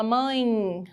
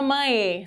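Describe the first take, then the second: First: "mãe" ending in a weak I glide, like "mãi". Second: "mãe" with the final E sounded as a separate E; full final E. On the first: Teacher showing how it's really said, weak I ending. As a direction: let the E of "mãe" slide into a faint I. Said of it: "Ficou bem fraquinho, tem som de I". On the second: Teacher showing what isn't said, full final E. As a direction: keep a clear E at the end of "mãe". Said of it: "Você não fala mãe". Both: Shown as a demonstration.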